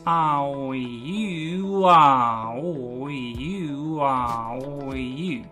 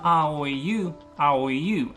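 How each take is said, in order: First: "ah, oh, you" joined in one unbroken airflow; "ah, oh, you" flowing together without breaks; connected vowels. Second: "ah, oh, you" broken apart, each vowel cut off; "ah, oh, you" with gaps between the vowels; choppy vowels. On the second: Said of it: "It's not". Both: Shown as a demonstration.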